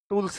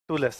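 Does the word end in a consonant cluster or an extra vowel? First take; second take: cluster; extra vowel. First: The l and s form a tight cluster. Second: An extra vowel splits the l and s. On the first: This is the standard form. "टूल्स नहीं है" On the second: This is how the local people say it. "वो क्या है? टूलस है।"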